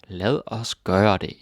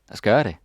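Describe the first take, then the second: First: It is said slowly, each word apart. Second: It is said fast and run together.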